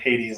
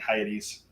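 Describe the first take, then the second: First: The name is said the usual American way. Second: The name is said a non-American way. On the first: "like every other American" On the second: "now I'm saying Hades"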